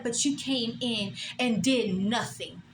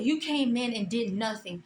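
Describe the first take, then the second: First: Slow, drawn-out mock of the boss; mocking boss's tone. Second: Said in the usual way. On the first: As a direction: imitate her slow put-down. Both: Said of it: "That's how she said it".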